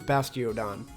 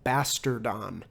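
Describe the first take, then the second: First: The middle is said as 'tee-oh'. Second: The middle is said as 'tar'.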